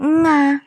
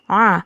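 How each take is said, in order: First: The sound begins with a nasal ng. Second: The vowel is made deep in the throat. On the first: The speaker calls it wrong. "bukan juga nga" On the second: The speaker calls it right. "Jadi harus a"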